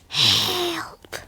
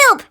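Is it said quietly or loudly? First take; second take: quietly; loudly. First: It is said in a quiet voice. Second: It is shouted very loudly.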